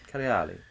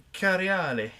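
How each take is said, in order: First: Cariali repeated as care-ee-AH-lee with a falling tune; pronunciation. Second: Cariali said with a long open ah in the middle, care-ee-AH-lee; pronunciation. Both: Shown as a demonstration. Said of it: "How would you say that word?".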